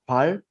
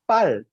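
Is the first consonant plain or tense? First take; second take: plain; tense. First: The first consonant is soft and plain. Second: The first consonant is tense and stronger. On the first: The speaker calls it wrong. "it's not just 발" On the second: The speaker calls it right. "Double B, stronger"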